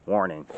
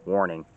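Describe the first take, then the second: No difference in how they are said.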